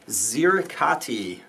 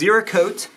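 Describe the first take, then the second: First: The word ends with a 'kah-tee' sound. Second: The word ends with a 'kote' sound. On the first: The speaker calls it wrong. "I know that I pronounced that wrong" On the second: The speaker calls it right. "it's actually Zerakote"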